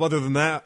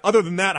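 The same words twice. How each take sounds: First: Said in the usual way. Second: Mock punchline "other than that"; emphatic repeat.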